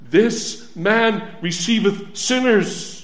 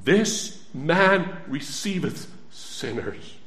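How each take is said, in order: First: Full-voiced proclamation. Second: Slow solemn reading. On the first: Preacher proclaiming the verse back to the congregation. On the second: Preacher reading the verse slowly to the congregation. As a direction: read it slowly, each word weighed. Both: Shown as a demonstration. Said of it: "What do we read in the Bible?".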